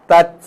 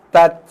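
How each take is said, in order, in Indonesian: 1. T di akhir dilepas dengan embusan napas. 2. T di akhir dilepas dengan embusan napas.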